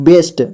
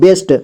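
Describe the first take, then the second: Both takes have the same delivery.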